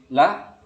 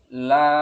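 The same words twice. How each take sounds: First: The vowel is cut short. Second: The vowel is held long. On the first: It means truly or indeed. "kalau dibaca cepat" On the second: It means there is none. "La-nya panjang kan?"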